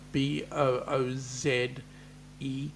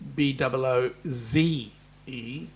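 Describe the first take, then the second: First: The final letter is said as zed. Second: The final letter is said as zee. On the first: This is how the speaker's own country says it. "we pronounce it as Z" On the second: This is how listeners overseas say it. "for you people across the pond"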